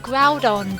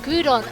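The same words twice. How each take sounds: First: The first syllable sounds like the word 'ground'. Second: The first syllable does not sound like 'ground'. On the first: The name comes from the word ground. "I've always pronounced it Groudon because it's, you know, obviously coming from the word ground" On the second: This is how many other people say it. "I know a lot of people pronounce it Groudon"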